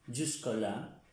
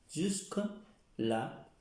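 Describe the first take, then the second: First: Said in the usual way. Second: "Jusque-là" drawn out, with a pause before là; slow syllabified model. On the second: Shown as a demonstration. Teacher repeating French for hasta aquí, slow demonstration. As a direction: say "Jusque-là" very slowly in parts, jusque, là.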